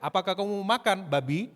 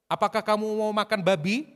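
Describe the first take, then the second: First: "makan" punched, then "babi" set apart with a rise; changed intonation, stress on MAKAN. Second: "babi" at the end of one high, loud, even-running question; question intonation. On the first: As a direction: hit "makan", then lift "babi" as a question. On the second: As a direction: ask straight through to "babi", voice raised. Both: Shown as a demonstration. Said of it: "Itu kalau dirubah intonasinya bisa lain".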